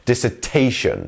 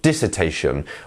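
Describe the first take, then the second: First: The main stress falls on the 'ta' syllable. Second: The main stress falls away from 'ta'. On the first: The speaker calls it right. "The T is our stressed syllable here" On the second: The speaker calls it wrong. "not dissertation"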